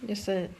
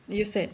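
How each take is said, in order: The two takes are said the same way.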